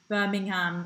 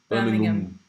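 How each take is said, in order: First: The last syllable sounds like the word ham. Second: The last syllable is reduced to a weak um. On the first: "they say ham, like the meat" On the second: "We just say um"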